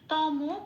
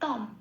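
First: The word ends with a vowel after m. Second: The word ends in a bare m sound. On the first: The speaker calls it wrong. "এরকম তমও বলতে পারবো না আর" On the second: The speaker calls it right. "অর্ধ হিসেবে উচ্চারিত হয়"

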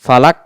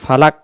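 Both takes have the same delivery.

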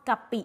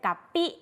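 First: It is said with a standard Thai accent. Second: It is said with a Northern Thai accent. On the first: This is the plain Central form. "ไม่ได้พูดตามว่ากะปิเฉยๆ" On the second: This is how Northern speakers say it. "แต่เวลาพูดมันก็จะเป็นกะปิ"

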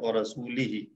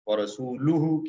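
First: The word ends with the vowels i-hi. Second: The word ends with the vowels u-hu. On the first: The speaker calls it wrong. "जेर जबरे नहीं लगी हुई थी, तो उन्हें पढ़ा दिया" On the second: The speaker calls it right. "व रसूलुहु की जगह"

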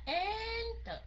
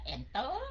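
First: The stress is on the first syllable. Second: The stress is on the second syllable. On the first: The speaker calls it right. "mình nhấn âm số 1 ... Mình nói là enter" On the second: The speaker calls it wrong. "Mình đâu có nói là enter"

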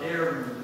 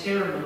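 First: The word begins directly with the vowel. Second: The word begins with an audible h sound. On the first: The speaker calls it wrong. "and not" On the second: The speaker calls it right. "it's always with breathing"

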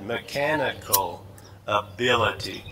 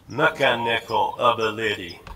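First: The second syllable of each word is stressed. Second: The first and third syllables are stressed.

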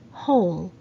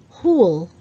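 First: The word is said in the standard way. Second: The word is said in a nonstandard way. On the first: The speaker calls it right. "but the right pronunciation is hole" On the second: The speaker calls it wrong. "A lot of Filipinos say hole"

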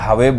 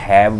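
First: The word sounds like 'hwe' with a full w. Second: The word sounds like 'haiv' with an ai vowel. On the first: "ਜੇ ਹਵੇ ਬੋਲਦੇ ਹੋ ਉਹ ਗਲਤ ਹੋ ਗਿਆ" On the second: "ਕਈਆਂ ਨੇ ਹੈਵ ਬੋਲਿਆ"

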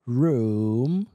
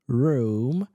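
First: The vowel is a long 'oo' sound. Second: The vowel is a long 'oo' sound.

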